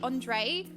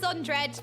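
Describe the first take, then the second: First: The j is not said as an English j. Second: The j is said as an English j. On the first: The speaker calls it right. "is how you're supposed to pronounce your name" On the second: The speaker calls it wrong. "Brit pronounce J as J"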